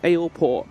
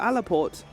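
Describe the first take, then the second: First: The first syllable sounds like 'ale'. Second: The first syllable sounds like 'alla'. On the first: The speaker calls it right. "It's Aleport because of ale" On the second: The speaker calls it wrong. "I've called it Alaport in my entire time playing this game"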